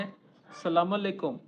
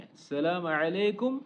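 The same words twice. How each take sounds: First: Said in the usual way. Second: السلام علیکم with a throaty Arabic ع in علیکم; ayn brought out. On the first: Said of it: "اس طرح سے بولتے ہیں". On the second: Shown as a demonstration. Teacher showing learners the Arab greeting, السلام علیکم with a clear ayn. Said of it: "عین کی آواز نکالنی ہے".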